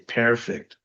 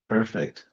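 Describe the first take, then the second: First: The first vowel is a clear 'e' before r. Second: The first vowel is an r-colored 'er' sound. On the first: The speaker calls it wrong. "if you pronounce it phonetically, P E R, you'd say perfect" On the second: The speaker calls it right. "so actually, it's perfect"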